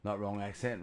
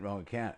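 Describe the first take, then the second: First: "accent" said in place of "account"; wrong word. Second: "account" said clearly with the "ow" sound; correct word. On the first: Correcting a misheard phrase: "accent" said as the wrong word. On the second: Correcting a misheard phrase: "account" said as the right word. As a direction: say "wrong account", leaning on "account". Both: Shown as a demonstration.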